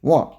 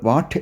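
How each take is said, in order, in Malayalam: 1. ഈ വാക്ക് യാതൊരു t ശബ്ദവുമില്ലാതെയാണ് അവസാനിക്കുന്നത്. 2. ഈ വാക്ക് വ്യക്തമായ t ശബ്ദത്തിലാണ് അവസാനിക്കുന്നത്. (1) "വാ എന്ന് പറഞ്ഞാൽ മതി" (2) "ഫുള്ള് വാട്ട് എന്ന് പറയരുത്"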